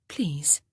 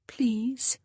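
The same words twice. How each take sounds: First: Said in the usual way. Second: Please whispered, higher, rising. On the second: Acted. Honor pleads with George, barely whispering. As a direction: let the second please fall to a breath.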